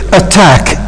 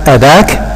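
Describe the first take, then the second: First: The middle consonant is a clear t. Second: The middle consonant sounds like a d. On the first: The speaker calls it right. "Look, attack" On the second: The speaker calls it wrong. "Is it possible to pronounce it as attack? ... Of course not"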